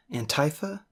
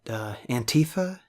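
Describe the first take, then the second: First: Antifa said as an-TIE-fa, softer and questioning; quiet questioning an-TIE-fa; alternate pronunciation. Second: Antifa said as an-TEE-fa, tentative; hesitant Antifa, soft; trying a pronunciation. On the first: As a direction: try Antifa with a long i. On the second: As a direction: test out Antifa with a short i. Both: Shown as a demonstration. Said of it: "I'm not even sure I'm saying that right".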